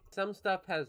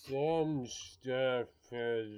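First: It is said at a normal pace. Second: It is said very slowly, drawn out.

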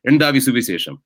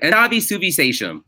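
First: It is said with a Malayali accent. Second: It is said with an American accent.

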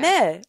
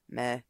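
First: The word is said in a cheerful tone. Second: The word is said in a gloomy tone. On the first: The speaker feels good. "I would like add some like tone to it" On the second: The speaker feels down. "can be happy or sad"

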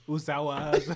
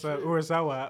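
First: The name is said with a syllable dropped. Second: All four syllables of the name are said. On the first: The speaker calls it wrong. "What did I say? I said, Usawa" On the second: The speaker calls it right. "one time I mispronounced Urasawa"

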